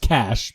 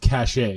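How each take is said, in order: First: The word is one syllable, like cash. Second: The word has two syllables, ending in ay. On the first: The speaker calls it right. "It's cash" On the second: The speaker calls it wrong. "when Americans pronounce it cachet"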